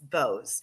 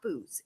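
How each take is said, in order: First: The name is said with an 'oh' vowel. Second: The name is said with an 'oo' vowel. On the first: The speaker calls it right. "it's Bowes" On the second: The speaker calls it wrong. "It's not Booze"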